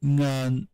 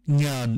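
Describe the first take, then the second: First: NGAN with no y-glide after the nasal; ngan, glide-free variant; contrast demo. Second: NYAN with a y-glide before the vowel; nyan, glided onset; contrast demo. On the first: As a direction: cite "ngan" alone, nasal straight into the vowel. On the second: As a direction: say "nyan" as the palatal variant. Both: Shown as a demonstration. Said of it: "nyan instead of".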